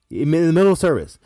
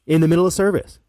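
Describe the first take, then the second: No difference in how they are said.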